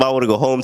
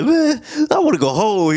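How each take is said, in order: First: Said in the usual way. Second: Much higher, whining mock gripe; grumpy soldier moaning that he wants to leave; whiny complaining. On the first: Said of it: "He was on some". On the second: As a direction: whine like a fed-up soldier. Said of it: "Schofield was a little mad".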